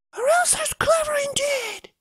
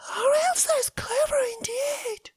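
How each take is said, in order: First: Put-on boy's voice. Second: High whisper of wonder; whispered awe. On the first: Boy marvels at Elsa. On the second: Acted. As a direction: breathe it in amazement. Maid marvels, half whispering.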